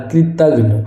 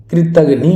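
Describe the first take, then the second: First: कृतघ्न ending on the n; no i after the final n of कृतघ्न; correct pronunciation shown. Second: कृतघ्नि with an added "nee" ending; loud, long final i on कृतघ्नि; wrong pronunciation shown. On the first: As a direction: say कृतघ्न as "krit-aghn". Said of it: "ये सही होगा". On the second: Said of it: "कुछ नहीं होता". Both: Shown as a demonstration.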